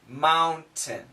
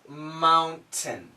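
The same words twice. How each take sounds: Both takes have the same delivery.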